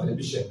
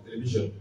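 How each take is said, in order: First: Télévision said the French way, ending in -sion, not -zhen; télévision with the French ending, as the mistake to avoid; wrong French-style pronunciation. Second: Télévision said the English way, ending in -zhen; télévision with the soft zh and a -zhen ending; English pronunciation. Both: Shown as a demonstration. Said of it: "pas télévision".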